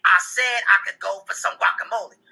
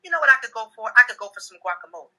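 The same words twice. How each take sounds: First: Imitating a wife insisting crossly; real loud insistence. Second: Light, offhand mention; imitating a wife's casual aside; casual hint. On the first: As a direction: repeat it pointedly, word by word. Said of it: "and then get real loud and say". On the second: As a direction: drop it casually as if it means nothing. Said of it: "my wife will casually say to me".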